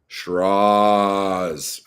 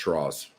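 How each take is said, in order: First: The last vowel is drawn out very long. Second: The last vowel is said short and plain. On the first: "I'm gonna do a really long ah on it" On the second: "Or is it just Shiraz?"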